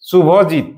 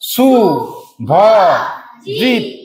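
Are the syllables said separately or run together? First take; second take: together; separately. First: The syllables are run together as one word. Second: Each syllable is said separately with pauses.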